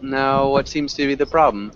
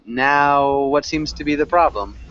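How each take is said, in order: First: The word now is said short. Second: The word now is drawn out longer.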